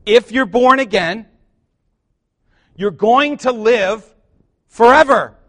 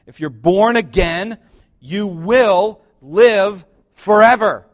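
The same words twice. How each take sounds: First: Higher, louder, slow climb to a ringing forever; louder repeat. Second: Louder, slower call building to forever; preaching build. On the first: Preacher repeating the line so the church says amen, louder still. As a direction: lift it so they answer amen. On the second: Preacher proclaiming to the congregation, slow and loud. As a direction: drive it home to the church. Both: Acted. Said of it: "let me say it again".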